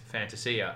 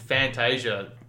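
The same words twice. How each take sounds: First: The name is said with an Italian pronunciation. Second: The name is said with an Australian pronunciation. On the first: "the proper Italian pronunciation is Fantasia" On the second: "I'm Australian. I'm in Australia. It's been Fantasia"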